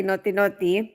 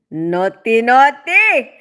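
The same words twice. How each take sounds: First: Said in the usual way. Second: Loud teasing naughty, naughty, leaping up on the second; playful echo. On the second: Pretend. Streamer echoing viewer's role play comment, playfully teasing and loud. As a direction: say "Naughty, naughty" as a punchy, playful tease.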